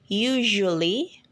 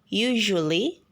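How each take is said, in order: The two takes are said the same way.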